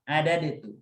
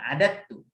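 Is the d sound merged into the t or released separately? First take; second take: separate; merged. First: The d is released with a bounce first. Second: The d merges straight into the t. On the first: "kita baca dengan qalqalah" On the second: "dibacanya di idghamkan"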